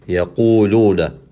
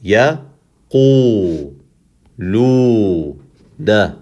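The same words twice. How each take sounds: First: Yaquluna in one flow with long u vowels; connected, drawn-out Yaquluna; whole word joined. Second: Ya, Qu, Lu, Na apart with pauses; one isolated syllable at a time: Ya, Qu, Lu, Na. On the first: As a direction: join Ya, Qu, Lu, Na into slow Yaquluna. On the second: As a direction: stretch Qu and Lu, short Ya and Na. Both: Shown as a demonstration. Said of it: "we'll do it two in one".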